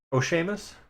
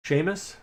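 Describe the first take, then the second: First: "Seamus" said SHAY-mus with a rising tune; trying the name again. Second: "Seamus" said SHAY-mus, rising; trying a name. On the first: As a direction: another tentative SHAY-mus, still asking. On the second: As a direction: test "Seamus" as SHAY-mus with a questioning lift. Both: Shown as a demonstration. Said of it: "how we wanna say this?".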